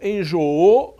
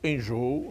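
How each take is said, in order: First: The stress is on the last syllable. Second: The stress is on the second-to-last syllable. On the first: The speaker calls it wrong. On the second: The speaker calls it right.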